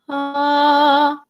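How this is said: The vowel starts with air and voice together.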